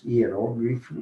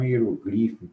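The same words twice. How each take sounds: First: "hierógrafo" said as hi-e-RÓ-gli-fo; stress on third-last syllable. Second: "hierogrifo" said as hi-e-ro-GLI-fo; wrong stress on second-last syllable. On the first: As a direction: hit the RÓ in "hierógrafo". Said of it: "Nas proparoxítonas". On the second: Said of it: "e não hierogrifo". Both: Shown as a demonstration.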